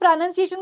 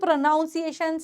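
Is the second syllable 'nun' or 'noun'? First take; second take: nun; noun. First: The second syllable sounds like 'nun'. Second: The second syllable sounds like 'noun'. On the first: The speaker calls it right. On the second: The speaker calls it wrong.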